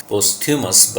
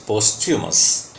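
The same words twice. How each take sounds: First: Posthumous said as post-HYOO-mus; common mispronunciation. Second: Posthumous said as POS-chu-mus; correct pronunciation. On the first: Teacher quotes how people commonly say it, posthumous as post-hyoo-mus. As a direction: say posthumous with a separate t and h, post-humous. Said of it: "You must have heard people speak". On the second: Teacher corrects what students have heard, posthumous as pos-chu-mus. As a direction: say posthumous with a ch sound and no separate h. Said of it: "but the word has typical pronunciation". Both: Shown as a demonstration.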